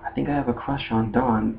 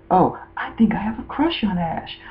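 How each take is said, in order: First: Soft confession at a natural pitch; mock boyish confession. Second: High, soft imitation of a girl confessing; mock girlish confession. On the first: Fan fiction Ash admitting his crush, lightly voiced and soft. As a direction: lightly imitate a boy admitting it quietly. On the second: Fan fiction Dawn admitting her crush, mock high and soft.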